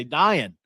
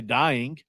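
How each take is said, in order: First: "dying" as "dyin'", ending in a plain n; West Virginia pronunciation. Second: "dying" with a full -ing ending; standard pronunciation. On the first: Host showing how West Virginians say it, "dying" as "dyin'". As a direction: drop the g on "dying". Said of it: "We say dying". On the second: Host showing what West Virginians don't say, "dying" with full -ing. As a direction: say "dying" with the final ng sounded. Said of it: "we don't say dying". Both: Shown as a demonstration.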